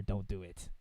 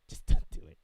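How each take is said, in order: First: Said in the usual way. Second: Laughing. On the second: Real, not acted. Repeats warning through a laugh.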